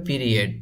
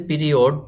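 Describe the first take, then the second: First: পিরিয়ড as pi-ri-ET; পিরিয়ড finishing in a short -et; correct pronunciation. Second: পিরিয়ড as pi-ri-OD; পিরিয়ড read as spelt, ending in -od; spelling pronunciation. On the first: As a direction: say পিরিয়ড with e for the written o. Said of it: "উচ্চারণ করতে হবে". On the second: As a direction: sound the written o in পিরিয়ড. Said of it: "লেখা আছে". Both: Shown as a demonstration.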